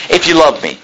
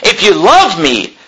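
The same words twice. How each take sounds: First: Said in the usual way. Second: Slow, with "love" leaned on hard; "If you love me" drawn out, "love" carrying the weight; stress on love. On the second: Shown as a demonstration. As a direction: preach it slowly, pressing on "love". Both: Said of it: "is what he's saying".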